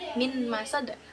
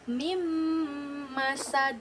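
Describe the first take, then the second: First: The n is pronounced before the m. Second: The n merges into a held, nasal m. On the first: "Kita masih menyebut dengan min ya" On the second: "cara membacanya itu mim masad"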